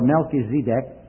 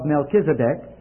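First: The name is said in Israeli Hebrew style. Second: The name is said in ordinary English style.

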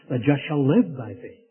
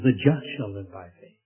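First: The stress falls on the word live. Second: The stress falls on the word just. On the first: The focus is on how the righteous live. "he places the emphasis on the life" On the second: The focus is on who is righteous. "he places the emphasis on the just"

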